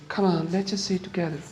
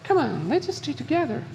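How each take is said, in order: First: It is said in a voice unlike Abby's. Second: It is said in a voice like Abby's.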